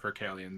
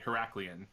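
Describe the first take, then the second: First: The k sound comes right after the first syllable. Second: The k sound comes after the second syllable. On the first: The speaker calls it wrong. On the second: The speaker calls it right.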